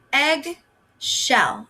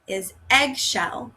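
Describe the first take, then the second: First: Eggshell drawn out very slowly; teacher slowly modelling eggshell for young readers; slow stretched word. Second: Said in the usual way. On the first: Shown as a demonstration. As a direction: stretch eggshell out so each part is heard. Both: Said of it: "And our last one".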